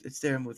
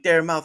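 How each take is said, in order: First: The name ends with a 'move' sound. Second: The name ends with a 'mouth' sound. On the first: The speaker calls it right. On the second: The speaker calls it wrong.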